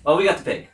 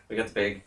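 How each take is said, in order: First: High, loud burst of joy; excited cheer. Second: Said in the usual way. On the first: Real, not acted. Gamer to co-op partner, cheering high and loud. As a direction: celebrate grabbing the pig. Cheering after reaching pig.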